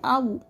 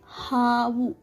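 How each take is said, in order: First: The word begins with a vowel, no h. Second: The word begins with an h sound. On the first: The speaker calls it wrong. "Some people will replace this ha and they'll say avu" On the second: The speaker calls it right. "Havu means snake"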